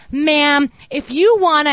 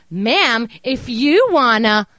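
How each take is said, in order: First: Higher and louder, a snippy curt "Ma'am"; condescending agent. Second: Slow exaggerated parroting of "Ma'am, if you wanna"; mocking copy. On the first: Retold or imitated. Retelling how the fraud rep talked down to her, snippy. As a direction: imitate the rep's snotty scolding tone. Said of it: "copying the way you're talking to me". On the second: Caller mocking the bank rep by parroting her, slow and taunting. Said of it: "I'm just copying the way you're talking to me".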